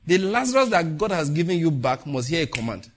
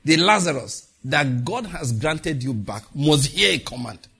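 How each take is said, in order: First: Said in the usual way. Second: Slow, louder with a drop on "command"; emphatic repeat. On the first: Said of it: "Hear what I said?". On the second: Shown as a demonstration. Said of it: "I say it again".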